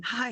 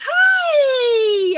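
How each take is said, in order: First: Said in the usual way. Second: Very high, loud, stretched-out "hi"; imitated shouted greeting. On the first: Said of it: "and I said". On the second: Lover answering the crash call, exuberant shout. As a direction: holler it long and high, oblivious and cheery. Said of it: "He goes".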